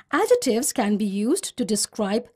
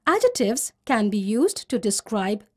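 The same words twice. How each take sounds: The two takes are said the same way.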